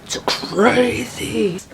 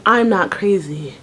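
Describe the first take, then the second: First: Very slow, drawn-out whisper; crazed whisper. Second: Said in the usual way. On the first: Retold or imitated. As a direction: whisper it like someone losing it. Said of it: "But then I went from". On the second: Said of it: "I went from".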